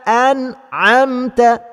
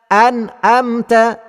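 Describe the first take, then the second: The two takes are said the same way.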